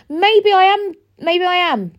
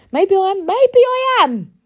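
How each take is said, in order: First: High, loud maybe I am; defiant retort. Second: High, loud, drawn-out maybe I am; defiant retort. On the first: Answering people who call her emotional, defiant and loud. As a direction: fling it back at them. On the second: To people calling her too emotional, defiant and loud. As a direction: throw it back at them, daring. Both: Real, not acted.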